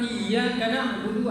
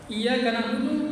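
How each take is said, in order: First: The y sound in iyyaka is doubled and held. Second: The y sound in iyyaka is short and single. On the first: The speaker calls it right. "Yang betulnya adalah" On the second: The speaker calls it wrong. "tanpa tasdid"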